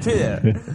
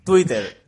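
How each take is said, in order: First: "Twitter" como "chuíder", intentando sonar americano; intento de pronunciación americana. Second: "Twitter" a la española, "tuíter"; pronunciación española. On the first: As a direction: ablanda las tes de "Twitter", casi "chuíder". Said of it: "a mí me cuesta muchísimo". ("Twitter" a la americana, con esfuerzo) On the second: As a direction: di "Twitter" con t clara y r española. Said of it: "los españoles hablamos como el cu". ("Twitter" como "tuíter") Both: Shown as a demonstration.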